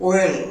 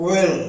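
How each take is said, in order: The two takes are said the same way.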